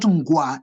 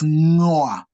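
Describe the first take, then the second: First: A hard g sound follows the ng. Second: The ng is a nasal with no hard g. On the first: The speaker calls it wrong. "it's not ngwa" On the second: The speaker calls it right. "it is ngoa. Like in the word hang"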